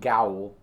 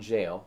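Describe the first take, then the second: First: The word begins with a hard G sound. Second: The word begins with a soft J sound. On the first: The speaker calls it wrong. "not Hypogean Gowl" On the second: The speaker calls it right. "I'm very sure about the soft G making the J sound"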